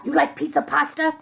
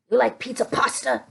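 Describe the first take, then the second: First: Fast playful chef asking; quick chef puppet voice. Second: Fast playful chef asking, a little softer; quick chef puppet voice. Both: Acted. Chef puppet asking kids about pizza, lightly voiced. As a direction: rattle it off like a chef.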